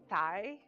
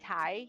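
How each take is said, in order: First: The word starts with a soft th sound. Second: The word starts with a plain t sound. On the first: The speaker calls it right. "instead of thigh" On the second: The speaker calls it wrong. "I say thigh"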